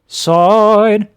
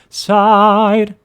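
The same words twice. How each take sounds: First: The vowel is dark and covered. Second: The vowel is bright and open. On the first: "Another droop of the soft palate, avoiding the bright ah" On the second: "the bright ah"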